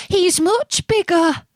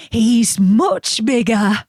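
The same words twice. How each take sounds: First: Much higher, small squeaky goat; tiny goat voice. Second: Slower, moderate goat voice; middle goat voice. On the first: Little goat's version of line. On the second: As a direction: say it plainly, only lightly voiced. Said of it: "who hadn't such a small voice". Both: A narrator's reading.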